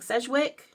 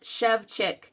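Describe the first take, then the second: First: The name begins with a plain 's' sound. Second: The name begins with an 'sh' sound. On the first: The speaker calls it wrong. "I've been saying Sedgwick, it's a good American try" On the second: The speaker calls it right. "But it's Shevchik"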